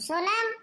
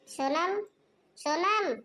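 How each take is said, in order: First: High, loud call across the house; mother-in-law losing patience, shouting for Sonam; impatient shout. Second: Calling across the house, louder on the second call; hammed-up call for the daughter-in-law. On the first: Acted. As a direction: yell her name, fed up now. Mother-in-law calls out again, impatient. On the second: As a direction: shout her name to another room. Mother-in-law calls out daughter-in-law.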